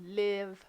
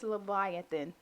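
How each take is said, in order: First: It is said with a Hebrew-style pronunciation. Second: It is said with the usual English pronunciation.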